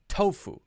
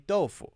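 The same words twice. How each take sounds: First: It is said with English sounds. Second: It is said with Chinese sounds. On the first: "do people in China say tofu? No" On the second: "they say tofu, right? Okay, it's a different pronunciation"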